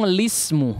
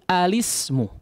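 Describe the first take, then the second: First: The word begins directly with the 'l' sound. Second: The word begins with an 'a' vowel before 'l'. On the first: "langsung lismu" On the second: "dia membaca menjadi alismu"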